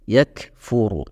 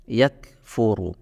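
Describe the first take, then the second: First: The k has only a light, natural breath. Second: The k has only a light, natural breath.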